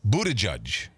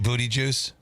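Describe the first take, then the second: First: The name is said in its standard form. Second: The name sounds like the words booty juice. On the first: The speaker calls it right. "but it's Buttigieg" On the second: The speaker calls it wrong. "I call him Pete Booty Juice"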